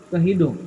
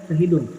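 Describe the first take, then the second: The two takes are said the same way.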